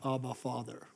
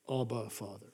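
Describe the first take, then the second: First: The phrase is cried out loudly with emotion. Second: The phrase is said quietly and calmly. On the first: It is a desperate, heartfelt plea. The speaker calls it right. "Notice it's cry out" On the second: It is a detached, formal address. The speaker calls it wrong. "It's not"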